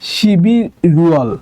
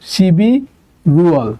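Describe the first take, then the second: No difference in how they are said.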